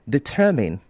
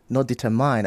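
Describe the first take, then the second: First: The second syllable sounds like min. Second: The second syllable sounds like mine. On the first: The speaker calls it right. "that mine is pronounced as min" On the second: The speaker calls it wrong. "I know there's mine in that word"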